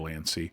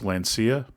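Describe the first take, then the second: First: The name ends with a short 'ee' sound. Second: The name ends with an 'ee-ah' sound. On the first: "in my head I always pronounce it Lancy" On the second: "but I think it's Lancia"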